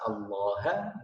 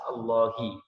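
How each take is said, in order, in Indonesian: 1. Kata ini diakhiri vokal a. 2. Kata ini diakhiri vokal i. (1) "haknya ini bisa berubah menjadi ha" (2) "bisa berubah menjadi kasrah, yaitu hi"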